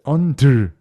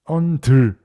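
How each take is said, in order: First: The last syllable is pushed out with force. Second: The same.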